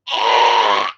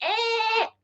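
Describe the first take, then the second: First: Low, choked yelp; "Ah!" as a low, strangled cry. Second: Very high, thin squeal, like a pig. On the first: Retelling being choked by dad, the first take: low choked "Ah!". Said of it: "Except it was really more high-pitched like a pig". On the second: Correcting his own retelling of being choked, a squealing pig "Ah!". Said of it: "more high-pitched like a pig". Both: Retold or imitated.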